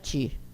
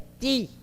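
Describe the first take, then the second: First: The syllable starts with a 'ch' sound. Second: The syllable starts with a plain 't' sound. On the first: The speaker calls it wrong. "Jamais a letra T vai ser pronunciada ti" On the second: The speaker calls it right. "É ti"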